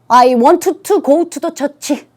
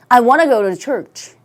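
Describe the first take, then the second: First: Want and to are said as separate words. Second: Want and to blend smoothly into wanna.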